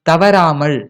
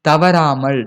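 Both takes have the same delivery.

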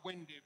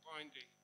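First: The first vowel sounds like the one in 'pin'. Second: The first vowel sounds like the one in 'pine'. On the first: The speaker calls it wrong. "Not windy" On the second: The speaker calls it right. "but windy. Okay. It winds more"

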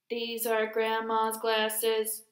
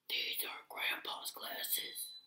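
First: It is said in a robot voice. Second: It is said in a natural voice.

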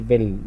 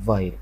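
First: The vowel is a short 'i' sound. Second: The vowel is a full 'eye' sound. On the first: The speaker calls it wrong. "ما نقولش فيل مش كسرة" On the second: The speaker calls it right. "أي تتنطق أي حقيقية تبقى فايل"

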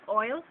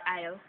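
First: It is said in a non-Jamaican accent. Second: It is said in a Jamaican accent.

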